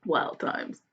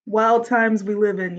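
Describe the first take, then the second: First: "Wild times" breathed out unvoiced and much softer; whispered echo. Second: Said in the usual way. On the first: Real, not acted. Whispered echo of own remark.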